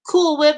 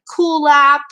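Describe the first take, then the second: First: The name is said like 'cool whip'. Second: The name is said like 'cool lap'. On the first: "people call her like Cool Whip" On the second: "Some people call her like Cool Lap"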